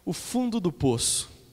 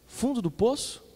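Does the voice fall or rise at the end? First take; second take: falls; rises. First: It is said as a statement, falling. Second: It is said as a question, rising.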